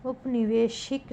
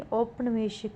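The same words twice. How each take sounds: First: उपनिवेशिक opening on short u; wrong pronunciation. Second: औपनिवेशिक opening on au; correct pronunciation. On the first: Teacher showing a spelling error, उपनिवेशिक starting "up". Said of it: "नहीं". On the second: Teacher giving the correction, औपनिवेशिक starting "aup". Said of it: "होगा". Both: Shown as a demonstration.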